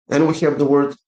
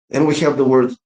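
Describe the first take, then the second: No difference in how they are said.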